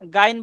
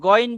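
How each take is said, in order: First: The first vowel is an open 'aa' sound. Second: The first vowel is a rounded 'o' sound. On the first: The speaker calls it wrong. "এটা গাইন বলা যাবে না" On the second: The speaker calls it right. "গইন বলতে হবে"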